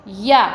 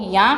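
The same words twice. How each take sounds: First: Said in the usual way. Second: या said through the nose as याँ; nasalised ending. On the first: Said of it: "को या कर दिया गया है". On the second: Shown as a demonstration. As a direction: nasalise the vowel of या. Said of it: "या और ऊपर चंद्र बिंदु".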